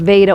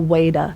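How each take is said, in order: First: The word begins with a V sound. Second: The word begins with a W sound. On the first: "could be pronounced V" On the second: "or W"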